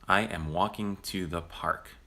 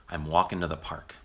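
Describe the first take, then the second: First: Every word is said fully and separately. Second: The words are contracted, with dropped and reduced sounds.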